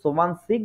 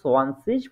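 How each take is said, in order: First: The word ends with a hard g sound. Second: The word ends with a soft ch sound. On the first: This form is used in some regions. "অঞ্চল ভেদে এটাকে আবার ওই সোবান সিগও ইউজ করা হয়" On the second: This form is used in most places. "শব্দের শেষে উচ্চারিত হয় তখন হচ্ছে এটা শ এর মতো উচ্চারণ হয়"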